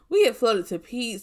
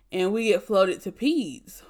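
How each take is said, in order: First: "we" lifted and stressed, correcting herself. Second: Said in the usual way. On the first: Real, not acted. Nurse correcting her story, stressing "we" a bit higher. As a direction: lean on "we" to correct the statement.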